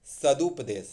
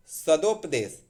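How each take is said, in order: First: सदुपदेश with U after द; correct form सदुपदेश. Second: सदोपदेश with O after द; wrong form सदोपदेश. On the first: Teacher corrects सदोपदेश, correct form. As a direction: say सदुपदेश, sa-dup-desh. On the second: Teacher shows the wrong compound, mistaken form. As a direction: say सदोपदेश, sa-dop-desh. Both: Shown as a demonstration. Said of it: "सदो नहीं".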